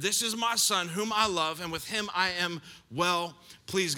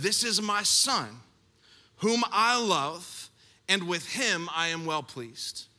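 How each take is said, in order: First: Said in the usual way. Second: Slow solemn. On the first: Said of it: "God's voice is audibly heard". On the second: Acted. Reading God's voice from heaven.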